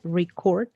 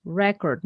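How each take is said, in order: First: Record with stress on the second syllable, ri-CORD; verb record. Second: Record with stress on the first syllable, REH-cord; noun record. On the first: Teacher showing the verb record, said ri-CORD. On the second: Teacher showing the noun record, said REH-cord. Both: Shown as a demonstration. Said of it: "not record".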